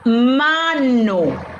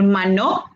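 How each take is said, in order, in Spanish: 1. El acento está en la primera sílaba. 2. El acento está en la última sílaba. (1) "pero sí puedo decir mano. ... En ma" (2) "Yo no puedo decir mano"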